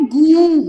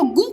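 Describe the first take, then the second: First: गु held as a long "gooo"; गु drawn out and pushed; long vowel. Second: गु as a quick, brief "gu"; गु with no hold; short vowel. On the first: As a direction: stretch out the vowel of गु. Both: Shown as a demonstration. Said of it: "उच्चारण में समय लग रहा".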